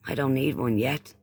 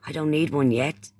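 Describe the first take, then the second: No difference in how they are said.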